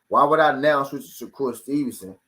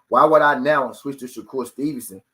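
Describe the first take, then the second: The two takes are said the same way.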